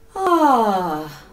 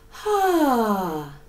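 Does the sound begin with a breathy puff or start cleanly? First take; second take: clean; breathy. First: The vowel starts cleanly without a breathy puff. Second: The vowel starts with a breathy h puff. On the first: The speaker calls it right. "by making a sighing sound like this" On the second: The speaker calls it wrong. "which has a little H at the beginning of the sound"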